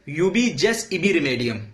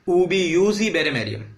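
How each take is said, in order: First: The word 'jus' begins with a j sound. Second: The word 'jus' begins with a y sound. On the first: This is how it is written in English. "हम लोग इंग्लिश के अंदर क्या देखते हैं, लिखा रहता है" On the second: This is how it is said in Latin. "ये लैटिन प्रोनाउंसिएशन है"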